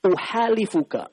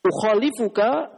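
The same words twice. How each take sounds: First: "uhalifuka" with a plain h, slow and clear; other reading. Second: "Ukhalifuka" with a throaty kh; with kho. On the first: The teacher gives the variant reading "uhalifuka", plain h. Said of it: "harokat yang lain". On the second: The teacher spells out "Ukhalifuka" with the letter kho, throaty kh. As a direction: rasp the kh in "Ukhalifuka". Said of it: "pakai kho". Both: Shown as a demonstration.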